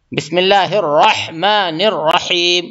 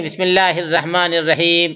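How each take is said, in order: First: الرحمن with heavy ra and a clear ha; correct recitation. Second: الرحمن with a thin ra, ha blurred; wrong recitation. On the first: Teacher showing correct بسم اللہ, heavy ra and clear ha. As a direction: say الرحمن with a thick ra and breathy ha. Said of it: "پر کریں گے". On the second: Teacher mocking a common mistake in بسم اللہ. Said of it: "ایسا نہیں". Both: Shown as a demonstration.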